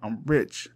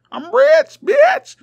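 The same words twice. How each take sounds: First: Said in the usual way. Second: Much higher, much louder triumphant shout; boastful yell. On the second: Acted. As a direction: scream it out like a bragging dragon. Dragon boasting then shouting.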